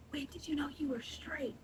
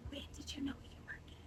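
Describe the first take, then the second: First: Hushed whisper, flipping the question; mock whisper. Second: Breathy secret whisper. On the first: Shown as a demonstration. Turning the coworker's question around in a whisper. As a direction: whisper it back to mock him. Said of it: "Why did you have to whisper that?". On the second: Retold or imitated. Coworker whispering a nosy question, hushed whisper. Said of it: "he whispers to me".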